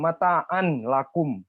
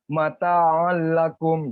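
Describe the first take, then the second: First: A separate n sound comes before the l. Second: The n sound merges fully into the l. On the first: The speaker calls it wrong. "nggak betul juga ya" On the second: The speaker calls it right. "Terus dimasukkan ya"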